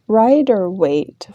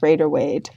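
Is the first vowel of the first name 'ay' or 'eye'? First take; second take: eye; ay. First: The first vowel sounds like 'eye'. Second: The first vowel sounds like 'ay'. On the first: The speaker calls it right. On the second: The speaker calls it wrong. "Like there's an A in there when there isn't one"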